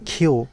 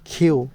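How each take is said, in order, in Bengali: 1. K সাউন্ডে বাতাসের একটি স্পষ্ট ঝলক আছে। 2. K সাউন্ডে বাতাসের একটি স্পষ্ট ঝলক আছে।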